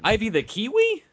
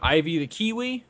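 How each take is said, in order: First: It is said with a questioning rise at the end. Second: It is said flatly, without a questioning rise. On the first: The speaker calls it right. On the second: The speaker calls it wrong.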